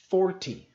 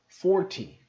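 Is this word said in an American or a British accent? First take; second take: British; British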